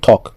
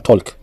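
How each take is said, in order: First: The L is silent. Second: The L is sounded. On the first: The speaker calls it right. "on dit talk" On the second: The speaker calls it wrong. "On ne dit pas talk"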